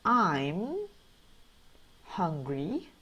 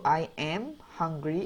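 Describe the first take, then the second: First: I am is shortened into one syllable. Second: I am is said as two full words.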